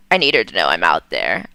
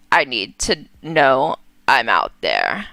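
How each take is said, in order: First: Much lower, hurried mother's voice; Vera, low and quick. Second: Low, halting mother's voice; a sorrowful ghost mother, lowered; Vera, low and hesitant. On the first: Vera's ghost speaks to her daughter, low and hurried. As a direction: drop deep into the ghost mother's voice. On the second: Vera's ghost speaks to her daughter in a low halting voice. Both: Acted. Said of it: "that's her voice".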